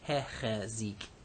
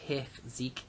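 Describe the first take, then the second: First: A short e vowel sits between ch and z. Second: The ch and z sounds come with no vowel between. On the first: The speaker calls it right. "we get hechezik" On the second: The speaker calls it wrong. "You can hear how hard that is to say"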